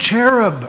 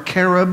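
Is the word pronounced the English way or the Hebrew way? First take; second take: English; Hebrew. First: The word has an English pronunciation. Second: The word has a Hebrew pronunciation.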